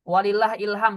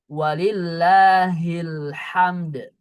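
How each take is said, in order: First: The phrase ends in 'ilham' without a final d. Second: The phrase ends in 'hamd' with a final d. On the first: The speaker calls it wrong. "Walillah ilham salah ya" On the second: The speaker calls it right. "Pakai H kecil ya. ... Seperti itu yang benar ya"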